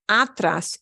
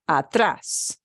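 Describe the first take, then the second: First: The stress is on the first syllable. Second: The stress is on the last syllable. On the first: The speaker calls it wrong. "It's not atrás" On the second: The speaker calls it right. "it's atrás"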